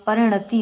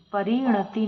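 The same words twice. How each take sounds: First: परिणति with short "ri"; correct pronunciation. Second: परिणति with stretched "ree"; wrong pronunciation. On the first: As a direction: keep the i after r short in परिणति. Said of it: "बड़ी की मात्रा नहीं आती". (परिणति में "रि" छोटा बोलें) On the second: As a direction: lengthen the i after r in परिणति. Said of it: "परिणति होता है". (परिणति में "री" लंबा बोलें) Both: Shown as a demonstration.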